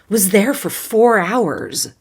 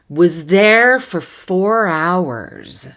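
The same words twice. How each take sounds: First: The phrase is spoken quickly, like conversation. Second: The phrase is spoken at a moderate speed. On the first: "Conversational pace" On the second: "Little faster"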